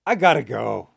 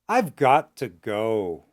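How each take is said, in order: First: The phrase is spoken fast with reduced words. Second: The phrase is spoken at medium pace, partly contracted. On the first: "and fast"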